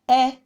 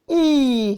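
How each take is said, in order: First: The vowel is a short e sound. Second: The vowel is a long e sound. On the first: The speaker calls it wrong. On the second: The speaker calls it right. "You say E"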